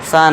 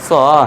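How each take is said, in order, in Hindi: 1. स्वर एक खुला, बिना गोलाई वाला 'ah' है। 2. स्वर एक गोल 'aw' है। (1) "सा नहीं" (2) "इसे हम पढ़ेंगे सौ"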